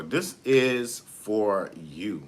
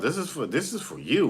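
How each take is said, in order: First: "This is for you" drawn out very slowly, every word weighed; slow right down and lean on "This is for you"; slow emphasis. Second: Said in the usual way. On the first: Real, not acted. Repeats the line for emphasis.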